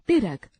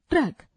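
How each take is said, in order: First: ट्रक said as इरक with the t dropped and an i sound added; wrong pronunciation. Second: Said in the usual way. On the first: Shown as a demonstration. Teacher showing students how not to say it. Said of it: "अशुद्ध उच्चारण". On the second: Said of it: "शुद्ध उच्चारण".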